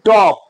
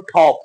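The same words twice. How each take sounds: First: টপ with a plain, unaspirated t; old unaspirated T. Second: ঠপ opening on an aspirated t; new aspirated T. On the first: Teacher showing learners the old way, plain t in টপ. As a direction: say টপ with no puff of air. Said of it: "আগে আমরা উচ্চারণ করেছি". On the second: Teacher showing learners the new way, aspirated t in ঠপ. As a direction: say ঠপ with a puff of air after the t. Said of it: "এখন করব". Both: Shown as a demonstration.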